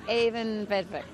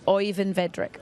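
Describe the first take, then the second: First: "Avon Vedrick" with the first name said AY-von, careful and slow; "Avon Vedrick" said slowly with the first name as AY-von; corrected Norwegian name. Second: "Oyvind Vedrick" with Oyvind said as OY-vin, the English way; "Oyvind Vedrick" with the first name said OY-vind; first try at a Norwegian name. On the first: Presenter copying the guest's own way of saying it. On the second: Presenter practising a guest's name, OY-vind. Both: Real, not acted. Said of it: "Oh, that's very nice".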